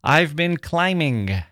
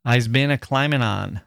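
First: "I've been climbing" slow and proper; standard grammar. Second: "I's been a climbing on" in the mother's dialect. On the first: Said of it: "It could be". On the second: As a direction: draw out "a climbing on". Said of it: "instead of". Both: Shown as a demonstration.

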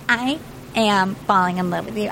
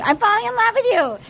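First: Low, measured declaration of love; quoted confession, pitched down; retold love confession. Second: High, quick burst of infatuation; excited squeal, imitating her; giddy mock confession. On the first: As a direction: confess it earnestly, imitating her. First take of retold confession. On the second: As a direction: blurt it out like a lovestruck contestant. Repeat of retold confession.

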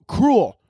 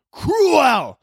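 First: "cruel" as one syllable, pitched up; struggling to pronounce. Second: "cruel" split into "croo-EL", very high; over-enunciated. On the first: Tongue-tied podcaster attempting "cruel" as one syllable. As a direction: say "cruel" run together as "crool", trying hard. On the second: Frustrated podcaster forcing out "cruel" as "croo-EL". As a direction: stretch "cruel" into two syllables, hitting a high "EL". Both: Real, not acted. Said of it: "Why the fuck can't I say that with my tongue".

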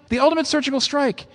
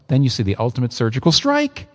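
First: "ultimate" lifted well above the voice; a high, ringing proclamation of "The ultimate surgical strike"; lifted high for emphasis; ultimate surgical strike, raised high for emphasis. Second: Said in the usual way. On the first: Shown as a demonstration. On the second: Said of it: "repeated higher".

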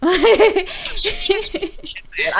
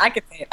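First: High, slow, drawn out through a laugh. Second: Said in the usual way. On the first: Real, not acted. Teased by the host about swearing, laughing it out. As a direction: savour the line while laughing.

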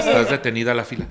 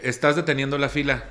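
First: Laughing repeat. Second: Said in the usual way. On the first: Shown as a demonstration. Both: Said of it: "en este tono le dije".

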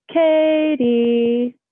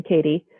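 First: High, drawn-out eerie sing-song; sing-songy eerie call. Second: Said in the usual way. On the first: Retold or imitated. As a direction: call it out long and high, dropping a step. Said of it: "so sing-songy and terrifying".

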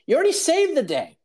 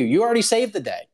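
First: Much higher squealing team. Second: Mock team. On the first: Retold or imitated. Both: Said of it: "they're like".

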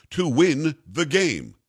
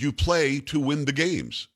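First: Slow, deliberate stress on "win" in "to win the game"; emphatic. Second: Said in the usual way. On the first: Retold or imitated. Coach answering a reporter about losing, slow emphatic stress on "win". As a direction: lean on "win", each word spaced out. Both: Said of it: "and he said it very emphatically".

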